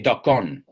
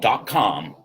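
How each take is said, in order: First: The last word ends with an n sound. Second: The last word ends with an m sound. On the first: The speaker calls it wrong. "I have a lot of students that mispronounce the M. So they say dot con" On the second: The speaker calls it right. "I want to hear those M's"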